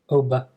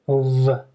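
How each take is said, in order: First: The middle consonant is a b sound. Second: The middle consonant is a v sound. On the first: The speaker calls it wrong. "not a b" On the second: The speaker calls it right. "make sure you make a v sound"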